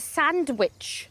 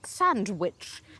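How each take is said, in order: First: The second syllable is full, like 'witch'. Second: The second syllable is short and reduced.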